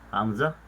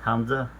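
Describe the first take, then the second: Both takes have the same delivery.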